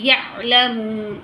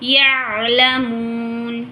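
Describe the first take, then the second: First: The ain sound is cut with an abrupt jerk. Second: The ain sound flows smoothly from its articulation point. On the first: The speaker calls it wrong. "उसको झटका दे देते हैं, ये गलत है" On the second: The speaker calls it right. "इसके अपने मखरज से निकालना है"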